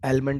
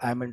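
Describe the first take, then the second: First: It begins with 'el', the l heard. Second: It begins with 'a', the l silent. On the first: The speaker calls it wrong. "एलमंड नहीं बोलते" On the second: The speaker calls it right. "एल always silent होता है"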